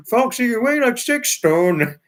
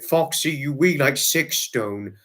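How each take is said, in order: First: High, loud imitation of Trevor's accent; copying David copying Trevor's accent; mock Trevor accent. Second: Said in the usual way. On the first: Retelling David imitating Trevor's accent, high and loud. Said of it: "He tried to do Trevor's accent".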